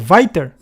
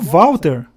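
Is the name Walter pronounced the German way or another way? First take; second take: German; non-German. First: The name is said with German pronunciation. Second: The name is said without German pronunciation. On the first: "pois sou alemão, na verdade sou Walter" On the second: "Mas não sou Volteiro, sou Walter"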